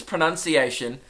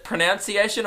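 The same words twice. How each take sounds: First: Pronunciation as pro-NUN-ciation; corrected pronunciation. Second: Pronunciation as pro-NOUN-ciation, unsure; questioned mispronunciation. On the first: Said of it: "I think it's pronunciation". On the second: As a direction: say pronunciation with "nounce" in the middle, questioning. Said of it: "the word pronunciation. Is it pronunciation?". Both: Shown as a demonstration.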